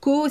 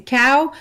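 First: "co" with a plain o vowel; mispronounced cow. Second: "cow" with a gliding ow diphthong; correct English cow. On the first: Showing listeners the mistake to avoid, mispronounced "co". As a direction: say cow wrongly as "co". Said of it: "de ne pas dire co". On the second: Showing listeners the pronunciation that matters, English "cow". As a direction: open the vowel of "cow", gliding to oo. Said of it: "si c'est cow". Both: Shown as a demonstration.

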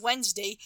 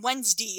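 First: Said in the usual way. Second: Midwestern WEDNESDAY, the ending said "dee"; Midwestern accent. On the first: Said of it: "Instead of saying". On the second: Retold or imitated. Imitating Fred Ward saying the days of the week, Midwestern "Wensdee" for Wednesday. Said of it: "very Midwestern accent".

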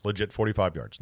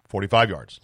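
First: "Legit" dropped softer, much quieter; quiet proud emphasis. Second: Said in the usual way. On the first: Shown as a demonstration. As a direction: let it land softly, almost to yourself. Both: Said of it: "That's my record".

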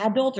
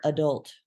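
First: "adult" stressed on the first syllable, AD-ult. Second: "adult" stressed on the second syllable, uh-DULT. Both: Shown as a demonstration. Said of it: "is it adult or adult".

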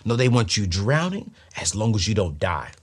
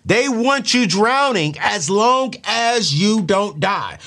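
First: Said in the usual way. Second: Slow, higher, louder, leaning on "long"; emphatic repeat. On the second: Shown as a demonstration. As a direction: hammer it home slowly and loudly. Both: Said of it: "Let me say that again".

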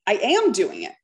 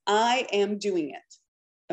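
First: A little emphasis on "am"; stress on am. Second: Said in the usual way. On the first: Shown as a demonstration. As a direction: lean on the word "am". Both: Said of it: "Put a little emphasis on the am".

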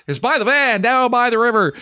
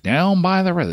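First: Joking movie quote. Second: Said in the usual way. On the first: Shown as a demonstration. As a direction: ham it up like a famous quote.

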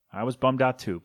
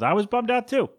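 First: Said in the usual way. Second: High, whiny mock disappointment; mock bummed. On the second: Host joking about no Belmonts, pitched way up. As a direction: squeal it like a let-down kid. Mock dramatic then plain repeat.

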